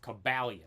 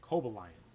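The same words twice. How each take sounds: First: The name does not end with 'lion'. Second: The name ends with the word 'lion'. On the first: The speaker calls it right. "But it's Cobalion" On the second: The speaker calls it wrong. "I used to always say Cobalion. ... Coba Lion"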